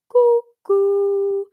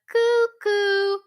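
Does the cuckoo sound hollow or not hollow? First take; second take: hollow; not hollow. First: The sound is round and hollow. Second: The sound is not round or hollow. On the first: The speaker calls it right. "You want a nice hollow sound?" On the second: The speaker calls it wrong. "Not a cuckoo"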